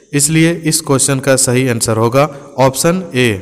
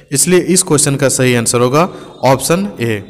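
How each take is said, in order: Both takes have the same delivery.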